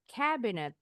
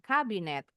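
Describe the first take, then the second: First: The word is said with an English pronunciation. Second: The word is said with an Indonesian pronunciation. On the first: The speaker calls it right. "Bacanya cabinet" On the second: The speaker calls it wrong. "Kalau kabinet bahasa Indonesia"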